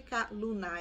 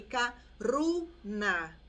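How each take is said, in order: First: The middle consonant is an L sound. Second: The middle consonant is an R sound. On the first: The speaker calls it wrong. "mas não é Ikaluna" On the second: The speaker calls it right. "é Ikaruna"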